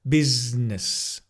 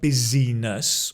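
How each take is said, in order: First: The middle vowel is dropped, joining Z and N. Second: The middle syllable is said in full. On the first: The speaker calls it right. "It's a z and a n together" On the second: The speaker calls it wrong. "Not busyness"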